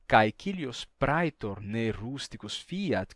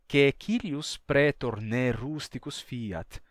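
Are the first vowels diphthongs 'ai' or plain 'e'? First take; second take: ai diphthongs; plain e. First: Caecilius and Praetor begin with the diphthong 'ai'. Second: Caecilius and Praetor begin with a plain 'e'. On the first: This is the standard city pronunciation. "em vez dele escrever ... com I" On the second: This mocks a rustic country accent. "ele trocou por E"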